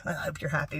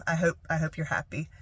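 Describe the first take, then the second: First: Low-volume mock bitterness; sarcastic. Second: Soft, kindly meant; sincere well-wishing. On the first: Shown as a demonstration. Showing how not to say it to dad, quietly sarcastic. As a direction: say it as a muted dig. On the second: Retold or imitated. Wishing dad well despite the hurt, soft and sincere. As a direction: wish them well, quietly and sincerely. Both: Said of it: "Or not like".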